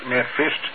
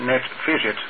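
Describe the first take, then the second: First: The word is said with two syllables. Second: The word is said with three syllables. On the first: The speaker calls it wrong. "Niet netvist" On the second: The speaker calls it right. "maar netvisit"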